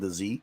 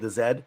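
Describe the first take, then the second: First: The letter is said the American way, zee. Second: The letter is said the Canadian way, zed.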